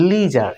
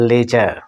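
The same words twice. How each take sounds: First: লিজার with an ee sound and a full final r; লিজার, American style; American pronunciation. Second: লেজার with the final r barely said; লেজার, final r half-dropped; soft final r. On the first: Teacher modelling American লিজার with the r said fully. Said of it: "এখানে উচ্চারণ হবে". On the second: Teacher showing the British লেজার with a weak r. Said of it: "half উচ্চারণ হবে বা উচ্চারণ হবে না". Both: Shown as a demonstration.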